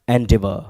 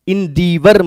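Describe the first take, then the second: First: The word begins with an 'en' sound. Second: The word begins with an 'in' sound. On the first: The speaker calls it right. "एंडेवर ऐसे पढ़ना है आपको" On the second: The speaker calls it wrong. "इंडीवर मत पढ़िएगा"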